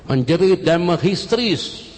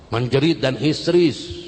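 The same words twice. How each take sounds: First: Emphatic cry. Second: Emphatic, less loud repeat. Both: Shown as a demonstration. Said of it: "langsung menjerit".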